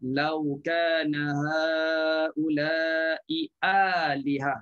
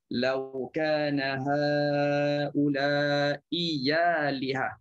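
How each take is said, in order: First: The last word begins with a glottal stop. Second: The last word begins with a y sound. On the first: "asal dalam bacaan Hafs ... Jelas bunyi alihah" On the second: "dia dah tukar bunyi kepada huruf ya"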